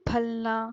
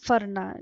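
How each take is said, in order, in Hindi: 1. बीच का व्यंजन l ध्वनि है। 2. बीच का व्यंजन r ध्वनि है। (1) "ल का भी उच्चारण नहीं है" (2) "उसके जगह पे र का प्रयोग होता है"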